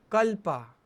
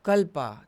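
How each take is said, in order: First: Kalpa said with extra punch; stressed word. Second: Kalpa pushed louder; stressed word. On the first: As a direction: lean hard on Kalpa to show emphasis. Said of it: "मैं उस पे थोड़ा ऐसे जोश लगा के, stress लगा के बोलूँगा". (कल्पा पर ज़ोर देकर बोलो) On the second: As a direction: punch Kalpa to show emphasis. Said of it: "तो मैं उसको थोड़ा स्ट्रेस डालूँगा कि". (कल्पा पर ज़ोर देकर, ज़्यादा ज़ोर से) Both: Shown as a demonstration.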